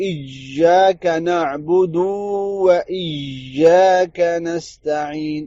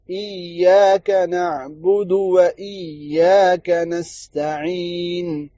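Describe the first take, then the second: First: ایاک نعبدو و ایاک نستعین very slow with the dal stretched; wrong recitation demo. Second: ایاک نعبدو و ایاک نستعین slow with the و joined without stretching the dal; correct recitation. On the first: Teacher imitating the common mistake, very slowly. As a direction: drag out the و after نعبدو as the mistake. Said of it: "یہ غلطی کرتے ہیں". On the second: Teacher reciting the verse the right way, slowly. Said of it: "جلدی سے پڑھنا ہے". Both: Shown as a demonstration.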